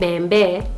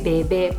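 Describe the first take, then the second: First: An m sound is heard before the b. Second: No m sound is heard before the b. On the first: The speaker calls it wrong. "instead of saying bembe" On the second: The speaker calls it right. "then I say bebe"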